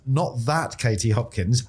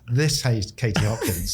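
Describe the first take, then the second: First: "that" picked out to rule out the namesake; stress on that. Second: "This" picked out to point to the guest; stress on This. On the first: Host tells listeners it's the other namesake, stress on "that". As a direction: lean on "that", slowly. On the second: Host introduces the guest in the room, stress on "This". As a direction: lean on "This" to single her out. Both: Real, not acted. Telling two namesakes apart.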